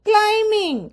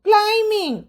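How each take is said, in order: Both takes have the same delivery.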